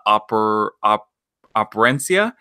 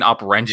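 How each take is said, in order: First: "Operencia" sounded out haltingly, ending in -see-uh; careful pronunciation attempt. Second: "Operencia" run together with a -sha ending; habitual mispronunciation. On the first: Host unsure of a game's name, "Operencia" attempted with -see-uh. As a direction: try "Operencia" piece by piece, ending on a questioning rise. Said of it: "I keep pronouncing this game wrong". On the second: Host admitting his usual slip, "Operencia" ending in -sha. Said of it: "I keep saying". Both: Shown as a demonstration.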